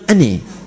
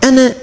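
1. Vokal akhir bergeser ke arah bunyi 'i'. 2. Vokal akhir adalah bunyi 'a' yang terbuka. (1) "dia bilang ani" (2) "Antum tanyakan ana"

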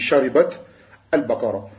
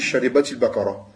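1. Le premier mot finit sans voyelle, puis il y a un arrêt. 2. Les mots sont liés par une voyelle 'i' ajoutée. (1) "Quand tu t'arrêtes, tu dis" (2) "Quand tu lis assemblée, tu dis"

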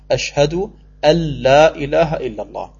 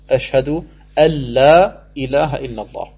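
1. Das n verschmilzt mit dem folgenden l-Laut. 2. Das n verschmilzt mit dem folgenden l-Laut.

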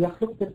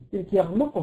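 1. الصامت صوت خاء مهموس. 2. الصامت صوت غين مجهور. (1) "بدل يخلق" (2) "يغلقوا بدل يخلق"

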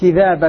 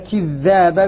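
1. حرف 'dh' في الوسط قصير ومفرد. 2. حرف 'dh' في الوسط طويل ومشدد. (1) "بتخفيف الذال" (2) "بتشديد الذال"

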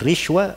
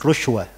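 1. Vokal pertama adalah bunyi i. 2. Vokal pertama adalah bunyi u. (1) "bisa dibaca rishwa" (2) "dan rushwa. Tiga harokat pada ra"

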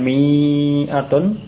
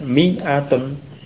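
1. Vokal pertamanya dibaca panjang. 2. Vokal pertamanya diucapkan pendek. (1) "bukan mi'atun" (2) "dibaca pendek"

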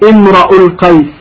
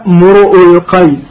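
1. تُنطق الكلمة الأولى: imra'u. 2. تُنطق الكلمة الأولى: mur'u. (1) "بفتح الراء" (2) "بضم الميم والهمزة بغير ألف"

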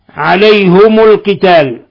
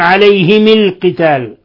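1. الحرفان h و m كلاهما عليهما ضمة. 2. الحرفان h و m كلاهما عليهما كسرة. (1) "بضم الهاء والميم" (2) "بكسر الهاء والميم"

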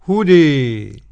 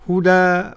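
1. الحركة الأخيرة مُمالة بشدة نحو 'e'. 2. الحركة الأخيرة مفتوحة تماماً، مثل 'a'. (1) "وقرأها بالإمالة الكبرى" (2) "قرأها بالفتح"

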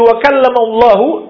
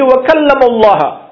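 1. Nama itu berakhir dengan vokal 'u'. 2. Nama itu berakhir dengan vokal 'a'. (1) "Mereka berubah dari wa kallamallahu" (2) "menjadi wa kallamallaha"

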